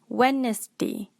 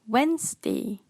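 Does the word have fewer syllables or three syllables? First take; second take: three; fewer. First: The word is said with three syllables. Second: The word is said with fewer than three syllables. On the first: The speaker calls it wrong. "Malaysian will pronounce this word as a three-syllable" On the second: The speaker calls it right. "But the correct pronunciation is Wednesday"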